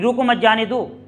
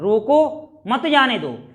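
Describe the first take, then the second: First: It is read in one flow without pausing. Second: There is a pause right after 'roko'. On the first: It is unclear whether to stop or let go. "लयबद्ध तरीके से ऐसे ही पढ़ेंगे" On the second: Someone leaving is to be stopped. "रोको, रुके हम"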